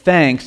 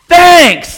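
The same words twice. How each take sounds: First: It is said at a normal, quiet level. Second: It is said louder, with more force.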